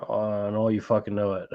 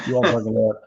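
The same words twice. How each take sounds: First: Said in the usual way. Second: "all" pushed harder in a firmer, insistent repeat; emphatic repeat. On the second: Real, not acted. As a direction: drive the point home on "all".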